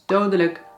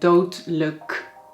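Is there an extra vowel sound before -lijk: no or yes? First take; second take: yes; no. First: It is said with a vowel before -lijk. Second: It is said without a vowel before -lijk. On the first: The speaker calls it right. "we soms dus een extra klank toevoegen" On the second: The speaker calls it wrong. "dat klinkt niet goed"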